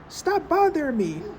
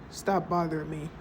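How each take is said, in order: First: It is said in a loud, yelling voice. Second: It is said in a calm, normal voice. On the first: The speaker calls it right. "You would be yelling" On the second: The speaker calls it wrong. "So you wouldn't say"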